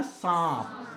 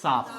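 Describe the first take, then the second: First: सांप with a long nasalized आ; सांप, held and nasal; nasal vowel. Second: Said in the usual way. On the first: Shown as a demonstration. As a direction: send the vowel of सांप through the nose. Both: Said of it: "अगर मैं इसको simple लिख दूँ".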